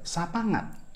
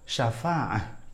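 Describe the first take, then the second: First: The middle consonant is a nasal ng sound. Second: The middle consonant is a throaty ain sound. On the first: "dibacanya ya sapangat" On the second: "Kata syafa'ah"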